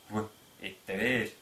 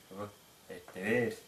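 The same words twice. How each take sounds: No difference in how they are said.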